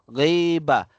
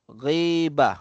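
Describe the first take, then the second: The two takes are said the same way.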